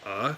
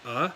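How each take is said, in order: First: "uh" dipping and then going up; third-tone "uh" with too much upward tail; dip then rise. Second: "uh" with a rising tone; short rising "uh"; second tone. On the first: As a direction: overdo the rise at the end of "uh". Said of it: "can sound kinda like". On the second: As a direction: lift the pitch straight up through "uh". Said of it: "like a second tone". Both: Shown as a demonstration.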